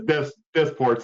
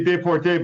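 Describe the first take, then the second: First: Desport said the American way, with s and t sounded; English pronunciation. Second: Deporté said the French way, silent s, final é stressed; Deporté with French vowels, no s sounded; French pronunciation. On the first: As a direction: Desport with English vowels and first-syllable stress. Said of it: "but he says". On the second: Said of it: "I like to say his last name with, like, a French, you know, accent". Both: Shown as a demonstration.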